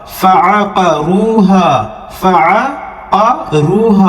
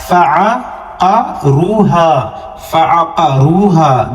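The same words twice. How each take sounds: First: فعقروہا very slow, each syllable clear; slow model recitation. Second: فعقروہا slow, waw and final alif held long; stretched waw and alif. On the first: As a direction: read فعقروہا slowly like the teacher. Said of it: "جس طریقے سے میں پڑھ رہا ہوں". (آہستہ آہستہ فعقروہا) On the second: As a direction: hold the long vowels in فعقروہا. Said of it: "مدہ کا ہے، تھوڑا سا کھینچیں گے". (فعقروہا میں واو اور الف کھینچیں) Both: Shown as a demonstration.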